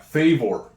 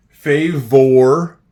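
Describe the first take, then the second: First: Said in the usual way. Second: "favor" loud, rising on "or"; sounding out words. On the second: Shown as a demonstration. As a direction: stress the "or" in "favor". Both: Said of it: "I hear an O R".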